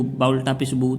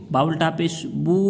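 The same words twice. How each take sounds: First: Quick, with a short "बू"; unstretched reading. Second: "बू" held a little longer; stretched vowel. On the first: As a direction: say "बू" briefly, without holding it. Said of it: "तो ये गलत हो जाएगा". ("बू" बिना खींचे, जल्दी में) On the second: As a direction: draw out the final "बू" to show its length. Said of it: "थोड़ा सा खींच के". ("बू" को थोड़ा खींचकर) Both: Shown as a demonstration.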